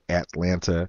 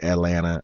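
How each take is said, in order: First: The middle t sound is clearly pronounced. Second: The middle t sound is dropped. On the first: "instead of Atlanta" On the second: "I said Atlanta"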